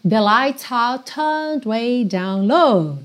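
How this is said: British accent, the R dropped, vowel lengthened.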